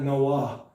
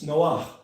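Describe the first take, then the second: First: The name ends with a plain vowel. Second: The name ends with a raspy throat sound. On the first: The speaker calls it wrong. "it's not Noah" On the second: The speaker calls it right. "but it's Noach"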